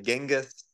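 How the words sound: The name is said the Australian way. "The Aussies will say Genghis"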